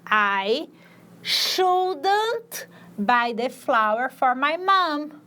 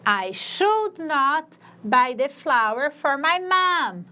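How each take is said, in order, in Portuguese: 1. 'Should' e 'not' se juntam em 'shouldn't'. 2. 'Should' e 'not' são ditos como duas palavras completas. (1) "se eu for escutar um nativo falando" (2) "eu vou dizer should not"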